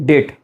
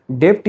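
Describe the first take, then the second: First: "date" as debt with a silent b; "date" short, the b left out; correct debt. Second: "debt" with the b sounded, like dept; "debt" as a learner's slip, dept; wrong debt. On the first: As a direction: say "date" with no b before the t, like det. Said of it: "the correct one is date". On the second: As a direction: say "debt" with an audible b or p before the t. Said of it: "debt is wrong pronunciation". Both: Shown as a demonstration.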